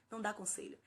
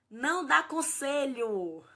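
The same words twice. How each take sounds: First: Said in the usual way. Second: "Não dá conselho" slow, louder, each word hammered; emphatic command. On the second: Shown as a demonstration. Parent coach warning parents, slow emphatic stress. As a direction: drive home "dá" slowly and loud. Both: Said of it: "Não minimiza".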